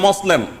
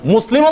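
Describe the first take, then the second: First: The first vowel is an o sound. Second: The first vowel is a u sound. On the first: The speaker calls it wrong. "ওকার দিয়ে বলে" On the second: The speaker calls it right. "মুসলিমও বলতে পারে না"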